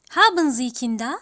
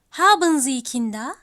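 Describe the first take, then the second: No difference in how they are said.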